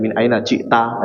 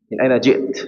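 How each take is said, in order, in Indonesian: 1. Frasa itu berakhir dengan vokal tambahan. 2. Frasa itu berakhir tegas pada konsonan. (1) "kalau gitu kan orang Indonesia"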